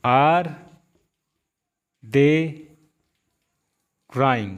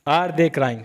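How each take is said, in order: First: Each word alone with long pauses; slow classroom dictation. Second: Said in the usual way. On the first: Shown as a demonstration. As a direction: set out one word at a time. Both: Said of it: "अब देखिए".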